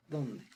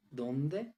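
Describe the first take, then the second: First: ¿Dónde? said with a falling end; a stated echo, ¿Dónde? falling away; flat echo. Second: ¿Dónde? said as a question with a rising end; a real question, ¿Dónde? rising up; asking. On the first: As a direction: say ¿Dónde? settled, no lift. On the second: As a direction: ask ¿Dónde? openly, voice lifting at the end. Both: Shown as a demonstration. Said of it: "question vs exclamation demo".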